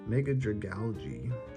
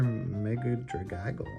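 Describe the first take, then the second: First: The name ends with a sound like 'algae'. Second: The name ends with a sound like 'aggle'. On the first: The speaker calls it right. "That makes more sense, right? It's like algae" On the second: The speaker calls it wrong. "Not Mega Dragaggle"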